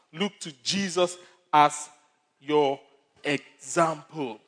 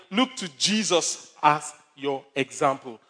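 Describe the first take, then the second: First: Pauses between as, your, example; spaced emphasis. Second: Slow, weighty stress on look; slow emphatic. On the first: Pastor repeating key line word by word, slow spaced emphasis. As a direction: drag out example slowly. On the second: Pastor repeating key line to congregation, slow and emphatic. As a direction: lay each word down slowly. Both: Shown as a demonstration.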